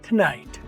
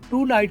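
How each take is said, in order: First: The 'to' is reduced and joined to the next word. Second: The 'to' is said separately with a full vowel. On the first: The speaker calls it right. "टू नाइट की बजाय टुनाइट" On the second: The speaker calls it wrong. "टू को आपने टू पूरा नहीं बोलना"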